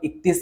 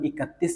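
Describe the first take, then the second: First: The word is said quickly with a syllable dropped. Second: The word is said slowly with every syllable. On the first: "അധികം" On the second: "നമ്മൾ സ്ലോയിൽ വായിക്കുകയാണെങ്കിൽ"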